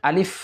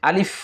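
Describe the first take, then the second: The two takes are said the same way.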